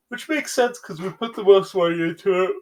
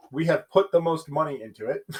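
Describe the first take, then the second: First: High, loud, yawn-stretched words; real yawn taking over the speech; talking through a yawn. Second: Said in the usual way. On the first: Real, not acted. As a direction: push the sentence out while yawning. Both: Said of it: "I'm gonna yawn".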